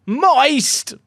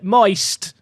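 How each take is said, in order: First: High, loud shout of Moist. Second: Said in the usual way. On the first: Real, not acted. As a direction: bellow Moist at the top of your voice. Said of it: "shout moist at the top of my voice". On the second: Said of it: "I'll just shout moist".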